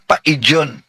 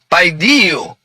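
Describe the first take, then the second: First: The word ends with an n sound. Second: The word ends with an oo sound. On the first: The speaker calls it wrong. "Ang pagbigkas niya, paidyon. Akala niya, ito'y in" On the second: The speaker calls it right. "hindi yan in. You yan"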